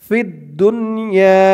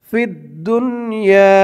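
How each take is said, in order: No difference in how they are said.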